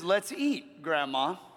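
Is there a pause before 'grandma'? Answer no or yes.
yes. There is a pause before 'grandma'. Grandma is invited to join the meal. "The second one is an invitation graciously offered to grandma to join you for a meal"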